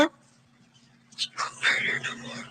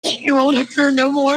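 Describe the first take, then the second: First: Breathy whisper, almost no voice. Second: Said in the usual way. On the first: Real, not acted. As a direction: whisper the words to yourself. Mother repeats it, whispered.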